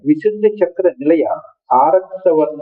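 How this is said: The long vowel begins the word araktavarna. The color is a reddish rose. The speaker calls it right. "అని చదవాలి"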